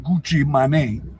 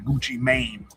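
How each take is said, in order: First: The name is said with a French accent. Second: The name is said with an English accent.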